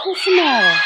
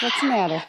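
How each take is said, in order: First: Higher, louder pet-talk question; raised sing-song coo. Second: Said in the usual way. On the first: Real, not acted. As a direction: ask it up and loud like to an excited puppy. Cooing to a pet.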